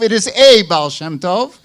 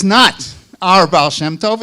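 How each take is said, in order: First: "a" said as a full, stressed "ay"; emphatic long "a", marking one among several. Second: NOT and our set apart with emphasis; emphatic "not our", contrasting whose it is; stress on NOT OUR. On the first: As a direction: punch the article "a" as "AY". Contrasts a with our. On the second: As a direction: lean firmly on "not our" before the name. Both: Real, not acted.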